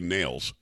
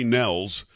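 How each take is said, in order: First: The name rhymes with 'tails'. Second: The name rhymes with 'bells'. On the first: The speaker calls it right. "I think he pronounces it actually Nails" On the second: The speaker calls it wrong. "I want to say Trey Nels. I'm telling you, I've screwed it up a million times"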